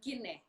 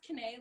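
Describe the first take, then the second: First: The name is said as in another language. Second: The name rhymes with Renee, starting with K. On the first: This is the form used by family at home. "So at home, I'm Kine" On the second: This is the form used in American English. "it's pronounced Kane, like Renee with a K"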